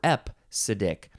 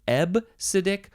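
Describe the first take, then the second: First: The consonant after the first vowel is a P. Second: The consonant after the first vowel is a B. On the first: The speaker calls it wrong. "the P sound got in there" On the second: The speaker calls it right. "you can pronounce it Ebsidic"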